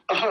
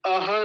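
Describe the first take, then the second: First: अह as short "ah" with a breath of h; half h. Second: अह as a-ha with open second vowel; wrong full ha. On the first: Teacher showing the halved sound, clipped pronunciation. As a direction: cut अह off on the h. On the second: Teacher showing what to avoid, full-ha mispronunciation. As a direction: sound a whole ha in अह. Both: Shown as a demonstration. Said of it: "अह को पूरा नहीं बोलेंगे".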